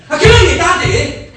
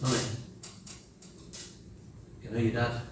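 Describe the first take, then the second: First: Laughing mock shout, much higher and louder. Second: Soft, low and gentle; tender. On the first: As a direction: bark it out as a scolding. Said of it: "Rather than saying". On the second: Retold or imitated. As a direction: say it lovingly and quietly. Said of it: "Tender, driven words".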